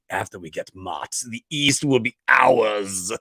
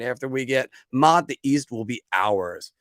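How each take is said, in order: First: It is said in a sinister, menacing tone. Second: It is read in a plain, neutral tone.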